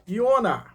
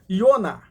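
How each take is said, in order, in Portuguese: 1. O nome começa com som de Y. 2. O nome começa com som de Y.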